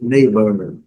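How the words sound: It is said in an American accent. "e no inglês americano"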